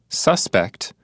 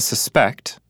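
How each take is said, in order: First: The stress is on the first syllable. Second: The stress is on the second syllable. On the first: It is used as a noun. "the second's a noun" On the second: It is used as a verb. "the first word of the pair is a verb"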